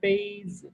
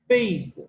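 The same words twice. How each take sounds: First: The first syllable has a high level tone. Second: The first syllable has a sharply falling tone. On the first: It means cup. "जो first tone के साथ है" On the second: It means quilt. "जो fourth tone के साथ है"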